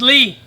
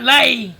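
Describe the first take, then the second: First: The vowel sounds like "ee" in see. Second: The vowel sounds like "ay" in day. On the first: The speaker calls it right. "It's pronounced as Lee" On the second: The speaker calls it wrong. "it's not Lay"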